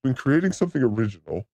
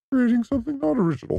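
First: Said in the usual way. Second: High, fast dopey voice; mock the simple-minded critic; mocking simpleton voice. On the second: Shown as a demonstration. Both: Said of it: "the simple-minded can't understand the difference".

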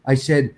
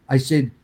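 The two takes are said the same way.

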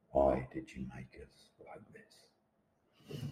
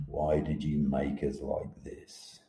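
First: Even slower and much softer, fading into a hush; fading lament. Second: Slow, quiet plea to the sky; statue's lament. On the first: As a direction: let the plea die away almost under the breath. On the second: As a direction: ask the heavens slowly and softly, accusing. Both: Acted. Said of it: "accusing finger at the sky".

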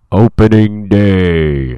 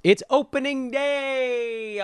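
First: Slow, loud bellowed announcement; booming shout. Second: High excited call. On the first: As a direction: drag it out and blast it. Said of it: "Did I blow your ears out with that one?". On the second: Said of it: "I'll lean back from the microphone". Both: Acted.

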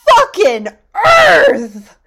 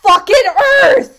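First: High, slow, strained yell; anguished shout. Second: High, loud strained yell; exasperated shout. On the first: Jet storms off yelling at the scientist, anguished shout. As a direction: roar it out in pure frustration. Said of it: "And Jet goes". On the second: Speaker shouts at everyday mishaps, strained high yell. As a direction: explode at the small annoyance. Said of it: "it'll be like". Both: Retold or imitated.

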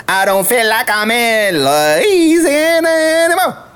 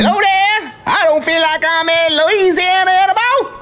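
First: The same bayou twang, less crazy; toned-down Louisiana accent. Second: Put-on overexcited Louisiana accent. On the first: Acted. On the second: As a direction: let the Louisiana twang run wild. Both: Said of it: "I get a little too crazy".

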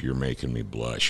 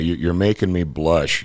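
First: Softer, under the breath; quiet repeat. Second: Said in the usual way. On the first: Real, not acted. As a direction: mutter it again to yourself.

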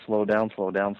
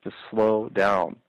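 First: Said in the usual way. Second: Drawn out very slowly; slowing down. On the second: Shown as a demonstration. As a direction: stretch each word out, slow. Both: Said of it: "as Chris Rock says".

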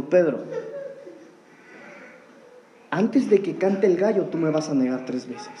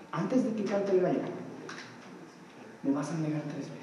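First: Soft, sorrowful low voice as Jesus; a touch of sorrow, dropping low at the end; sad. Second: Much softer, lower, grieving Jesus; almost breathe it out in sorrow; hushed sorrowful voice, fading away; sad. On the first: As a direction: tell him gently, with grief. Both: Retold or imitated. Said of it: "yo me imagino que con tristeza".

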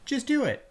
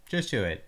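First: Very high squeaky voice; high squeaky slogan. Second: Said in the usual way. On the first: Shown as a demonstration. Slogan chant.

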